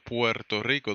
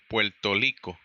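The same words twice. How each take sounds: First: Rico begins with a rolled R sound. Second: Rico begins with an L sound. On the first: The speaker calls it right. "instead of Puerto Rico" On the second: The speaker calls it wrong. "they say Puerto Rico"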